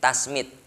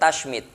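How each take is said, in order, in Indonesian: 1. Konsonan setelah 'ta' adalah 's'. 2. Konsonan setelah 'ta' adalah 'sh'. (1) "Ini pakai sin" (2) "pakai shin"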